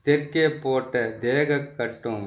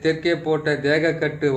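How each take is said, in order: First: The line is recited slowly and patiently. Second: The line is recited quickly. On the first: "பொறுமையா சொல்றேன்" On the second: "கொஞ்சம் வேகமாக சொல்லிடுறேன்"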